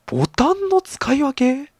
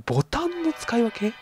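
First: High, slow baffled question on ボタンの; surprised disbelief; puzzled rising question. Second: Softer, high puzzled echo of ボタンの; quieter baffled repeat. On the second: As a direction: mutter the doubt again. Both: Real, not acted. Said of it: "なんか攻撃カードの使い分けとかでもなく".

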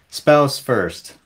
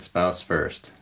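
First: Spouse first punched out, higher and louder on Spouse with a falling end; emphatic answer. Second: Said in the usual way. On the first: Real, not acted. Announcing her family pyramid to viewers, emphatic stress on Spouse. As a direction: hit Spouse hard like the final word.

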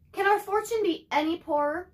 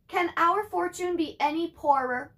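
First: Mock lament, pitch up on our; sighing mother. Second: Sighing mother. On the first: Mother laments their poor luck, sighing. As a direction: sigh it out like a weary mother. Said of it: "Let me start again". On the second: Acted. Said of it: "Ma sighed".

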